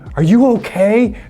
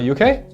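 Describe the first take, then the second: First: Every word and syllable is said clearly. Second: It is said casually, with words dropped. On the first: Something serious has happened and help may be needed. "You would say every word and pronounce every syllable very clearly" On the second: It is a passing, everyday check-in. "But more casual"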